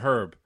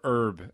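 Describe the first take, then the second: First: The h at the start is pronounced. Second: The h at the start is silent, American-style.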